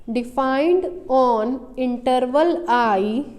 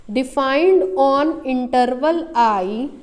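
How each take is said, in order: The two takes are said the same way.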